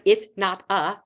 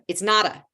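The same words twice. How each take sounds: First: The words are said separately. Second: The words are run together smoothly.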